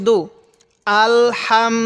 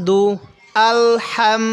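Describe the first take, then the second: No difference in how they are said.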